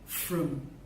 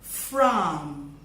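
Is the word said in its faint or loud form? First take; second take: faint; loud. First: The vowel is reduced and weak. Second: The vowel is full and clear. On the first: "repeat the words in their faint form" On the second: "I'll say the words in their loud form"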